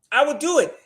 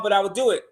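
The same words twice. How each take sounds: First: High Chris Tucker squeal on do; Chris Tucker impression. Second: Said in the usual way. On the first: Host doing Chris Tucker to the audience, high squeal. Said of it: "Sound like Chris Tucker".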